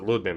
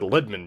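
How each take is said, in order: First: The first vowel sounds like the 'oo' in food. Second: The first vowel sounds like the 'i' in lid. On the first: This is claimed to be the proper pronunciation. "you actually pronounce it Ludman" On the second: This is the Americanized pronunciation. "people just said Lidman because America"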